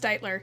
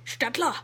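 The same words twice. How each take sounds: First: The name is pronounced the English way. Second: The name is pronounced the German way. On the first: This is how the name's owner says it. The speaker calls it right. "no, it's Stittler" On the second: This is how the name is said locally. The speaker calls it wrong. "the guy looks at the passport and is like, ah"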